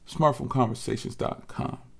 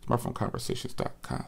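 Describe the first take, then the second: First: It is said at normal speed. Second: It is said very fast.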